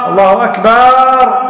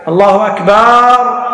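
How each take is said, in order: The two takes are said the same way.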